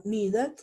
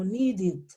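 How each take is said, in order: First: "needed" with an open, full vowel in "ded"; wrong spelling-based ending. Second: "needed" ending in a short "did". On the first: Teacher warns class what not to say, "needed" with full "ded". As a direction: say "needed" as written, Spanish-style. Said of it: "Ya no digo needed". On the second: Teacher models the past tense, "needed" ending in "id". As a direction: slowly say "needed" as "nee-did". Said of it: "yo digo needed". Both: Shown as a demonstration.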